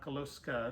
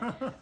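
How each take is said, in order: First: The middle cluster is said as 'sk'. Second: The middle cluster is said as 'ks'. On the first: The speaker calls it wrong. "It's not Koloska" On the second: The speaker calls it right.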